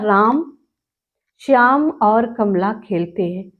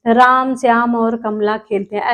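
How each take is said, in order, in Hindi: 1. हर नाम के बाद थोड़ा सा रुकना है। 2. नाम बिना रुके एक साथ बोले जाते हैं। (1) "दो सेकंड के लिए रुक रुकेंगे, अपने आप रुक जाते हैं" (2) "डायरेक्ट इन राम श्याम ऐसे करते चले जाएंगे ... ऐसे नहीं"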